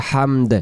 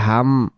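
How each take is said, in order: First: হামদ with a released final d; d sounded. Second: হাম ending on a closed m; wrong হাম without its final d; d dropped. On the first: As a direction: add a clear d after the m in হামদ. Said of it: "উচ্চারণ হয় হামদ". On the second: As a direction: stop হাম at the m. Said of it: "দ অক্ষরটা বাদ দিয়ে হাম হয়ে গেছে". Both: Shown as a demonstration.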